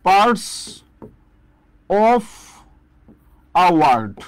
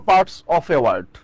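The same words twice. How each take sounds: First: Parts... of... a word, with long pauses; word-by-word dictation. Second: Said in the usual way. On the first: Shown as a demonstration. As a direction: dictate "Parts of a word" one piece at a time. Teacher dictates the phrase word by word.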